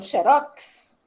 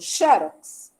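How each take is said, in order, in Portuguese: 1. A tônica está na última sílaba. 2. A tônica está na primeira sílaba. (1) "então falou com oxítona" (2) "então tem acento"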